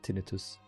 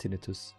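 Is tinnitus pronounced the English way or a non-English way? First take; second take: non-English; non-English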